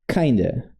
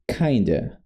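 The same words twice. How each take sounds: First: The two words merge into one reduced word. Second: The two words merge into one reduced word.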